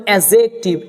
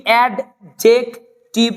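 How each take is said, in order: First: "অ্যাডজেক্টিভ" as a-zek-tiv, no d; smooth "অ্যাডজেক্টিভ", a straight into zek; silent d. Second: "অ্যাডজেক্টিভ" with the d sounded, ad-jek-tiv; broken-up "অ্যাডজেক্টিভ" with a hard d; wrong reading. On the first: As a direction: say "অ্যাডজেক্টিভ" dropping the d. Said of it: "ডিটাকে বাদ দিয়ে পড়তে হবে". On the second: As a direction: say "অ্যাডজেক্টিভ" slowly, d then j. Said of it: "না". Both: Shown as a demonstration.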